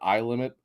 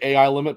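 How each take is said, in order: First: AI is spoken as the single sound eye. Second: AI is spoken as two separate letters. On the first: The speaker calls it wrong. "I've heard people calling it" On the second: The speaker calls it right. "I'd been pronouncing it"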